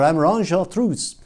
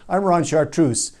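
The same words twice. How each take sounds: First: It is spoken with a thick French accent. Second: It is spoken in a plain, unaccented voice. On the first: "In a thick French accent" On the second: "Ends with thick French accent"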